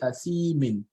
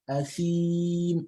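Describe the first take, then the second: First: The word ends with an added -in sound. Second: The word stops on a bare m sound. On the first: The speaker calls it wrong. "you will not say Athimin" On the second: The speaker calls it right. "cancel out the Kesroteni"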